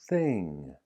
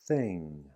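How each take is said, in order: No difference in how they are said.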